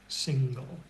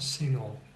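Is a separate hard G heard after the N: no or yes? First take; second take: yes; no. First: The N is followed by a hard G sound. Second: The ng is one sound with no hard G. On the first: The speaker calls it right. "So you can hear the G" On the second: The speaker calls it wrong. "it's not single"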